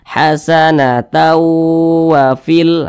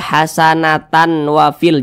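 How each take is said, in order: First: The n merges into a long nasal w. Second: A clear n is heard before the w. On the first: The speaker calls it right. "dimasukkan ke huruf waw. Kemudian didengungkan, suaranya itu kita tahan" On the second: The speaker calls it wrong. "jangan dibaca hasanatan wafil"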